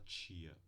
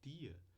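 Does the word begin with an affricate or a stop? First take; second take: affricate; stop. First: The word begins with a ch-like affricate. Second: The word begins with a plain t stop. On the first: "com a africada t" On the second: "ou com a oclusiva t"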